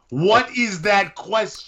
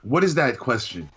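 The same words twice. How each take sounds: First: Drawn-out, higher disbelief; stretched, baffled what; incredulous high repeat. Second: Said in the usual way. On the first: Real, not acted. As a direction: say it like you can't believe the question.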